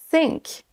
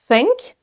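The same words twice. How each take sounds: First: Higher sink with a clear s; S sound. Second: Higher think with an airy th; correct TH. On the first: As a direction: say sink with a sharp s, no th. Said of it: "en S". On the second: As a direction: say think, tongue between teeth. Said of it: "En transformant le son th". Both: Shown as a demonstration.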